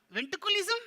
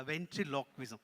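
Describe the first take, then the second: First: High, loud puppet question; baffled puppet. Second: Said in the usual way. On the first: Pretend. Puppet garbles the word back.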